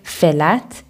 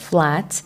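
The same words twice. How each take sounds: First: A vowel is inserted between f and l. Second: No vowel separates f and l. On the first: "an A sound is added between two adjacent consonants, like flat instead of" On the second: "instead of flat"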